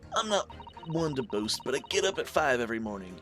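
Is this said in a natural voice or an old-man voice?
natural voice. It is said without a convincing old-man voice. The speaker calls it wrong. "I'm not doing that right"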